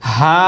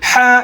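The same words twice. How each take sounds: First: The ha is soft with no throat pressure. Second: The ha is pushed loudly from an open throat. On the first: The speaker calls it right. "গলায় চাপ দেওয়া যাবে না" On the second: The speaker calls it wrong. "এটা গলা ছেড়ে হা এমন না"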